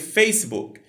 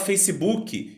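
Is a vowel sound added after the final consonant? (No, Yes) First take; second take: No; Yes. First: The final consonant ends it with no vowel. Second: An extra vowel follows the final consonant. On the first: The speaker calls it right. "onde deveria ser" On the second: The speaker calls it wrong. "a gente tende a colocar um som de vogal onde ele não existe"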